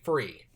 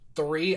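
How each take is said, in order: First: It begins with an 'f' sound. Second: It begins with a 'th' sound. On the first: The speaker calls it wrong. "I could not do the th sound" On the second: The speaker calls it right. "when I would say like three"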